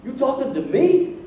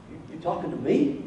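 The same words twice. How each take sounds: First: Higher, disbelieving 'me?'; raised-pitch astonished comeback; incredulous question. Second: Softer, lower questioning mutter; hushed, doubtful question to himself; incredulous thought. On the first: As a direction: ask it in rising disbelief. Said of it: "that's how I hear it". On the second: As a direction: quietly check he really means you. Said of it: "And Gideon probably thought". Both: Retold or imitated.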